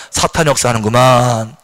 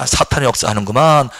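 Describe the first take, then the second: First: Low repeated phrase; calm low recitation; repeat after me. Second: Low knowing tone; calm low recognition; say it for us to repeat. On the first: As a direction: echo the line as the model. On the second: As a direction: model the line for the congregation. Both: Shown as a demonstration. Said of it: "따라합시다".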